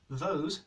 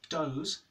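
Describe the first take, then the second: First: The word begins with a voiced th sound. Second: The word begins with a d sound. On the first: "the is replaced by d at the start of a word" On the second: "those becomes doze"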